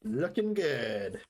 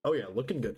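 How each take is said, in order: First: Slow admiring drawl; slow drawn-out praise. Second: Said in the usual way. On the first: Acted. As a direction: stretch it out slowly, admiring. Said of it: "drawn out approval". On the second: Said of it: "quick plain approval".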